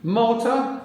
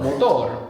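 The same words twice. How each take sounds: First: "Motor" as English MOH-tuh, high and rising; English pronunciation. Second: "Motor" as Spanish mo-TOR, falling; Spanish pronunciation. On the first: Teacher prompting the student, English pronunciation of "Motor". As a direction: offer "Motor" in English with no final R. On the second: Teacher confirming the student's answer, Spanish pronunciation of "Motor". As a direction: stress the end of "Motor" and sound the R. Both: Shown as a demonstration. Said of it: "I think we can just apply it".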